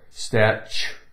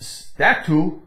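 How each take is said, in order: First: The middle consonant is a ch sound. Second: The middle consonant is a plain t sound. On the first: The speaker calls it right. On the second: The speaker calls it wrong.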